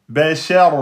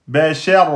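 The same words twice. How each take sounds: Both takes have the same delivery.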